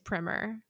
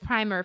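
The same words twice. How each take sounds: First: It is said with the American pronunciation. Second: It is said with the British pronunciation. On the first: "apparently the American pronunciation is primer" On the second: "the British is primer for both"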